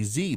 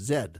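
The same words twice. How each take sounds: First: The letter is said as 'zee'. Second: The letter is said as 'zed'. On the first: "Americans say Z" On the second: "my teacher was British and it was Z"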